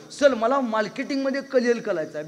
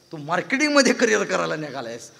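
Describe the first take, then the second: First: R turned to L in "कलिअल"; childish speech defect, "कलिअल" for career, pitched up; lisping boy. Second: Said in the usual way. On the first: Retold or imitated. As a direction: say "मार्केटिंगमध्ये कलिअल" with L for every R. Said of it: "बेनाला र बोलता येत नव्हतं". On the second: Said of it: "तुला र बोलता येत नाही".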